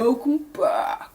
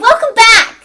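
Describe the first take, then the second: First: It is said in a deep voice. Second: It is said in a high-pitched voice. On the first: The speaker calls it right. "the really deep, manly voice" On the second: The speaker calls it wrong. "annoyingly high pitch"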